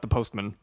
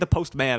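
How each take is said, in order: First: It is said like an ordinary noun. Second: It is said like a superhero's name. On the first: It is any mail carrier. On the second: It is a title for one special figure.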